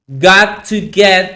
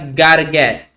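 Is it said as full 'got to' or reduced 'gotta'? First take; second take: full; reduced. First: Each word is said fully, as got to get. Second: It is reduced and linked, as gotta get.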